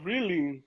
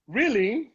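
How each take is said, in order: First: Flat surprise. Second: Rising disbelief. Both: Real, not acted.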